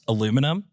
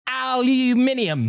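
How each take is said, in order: First: Said the American way, with four syllables. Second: Said the Australian way, with five syllables.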